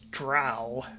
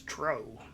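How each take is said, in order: First: The vowel is not a long O. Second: The vowel is a long O. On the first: This is how most people say it. "the widely accepted pronunciation of the word is drow" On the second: This is how it was said in the early days. "back in the early days, we always pronounced it as dro"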